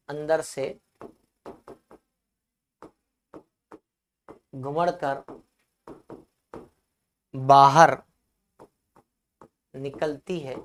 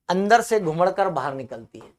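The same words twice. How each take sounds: First: Low, word by word with long pauses; slow dictation for students writing it down. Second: Said in the usual way. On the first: Real, not acted. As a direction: dictate in small chunks, waiting after each. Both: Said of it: "परिभाषा मैं लिखवा देता हूं".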